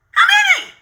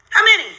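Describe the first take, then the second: First: Outraged shout. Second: Said in the usual way. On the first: Real, not acted. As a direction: yell it in sheer disbelief at the count. Outraged at how many videos.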